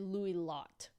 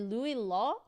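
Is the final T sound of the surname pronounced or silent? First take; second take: pronounced; silent. First: The surname ends with an audible T sound. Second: The surname ends without a final T sound. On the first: The speaker calls it right. "You do pronounce the, the T" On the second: The speaker calls it wrong. "you don't pronounce the last consonant in French if it is the last letter"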